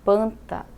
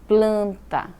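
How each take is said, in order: First: The word starts with P, no L sound. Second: The word starts with P followed by L. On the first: "Sem o L, como eu já falei para você, fica panta" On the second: "Planta com L"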